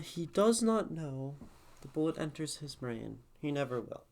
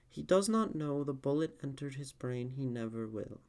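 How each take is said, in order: First: There is a long pause before the last phrase. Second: There is only a short pause before the last phrase. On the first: The speaker calls it right. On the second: The speaker calls it wrong.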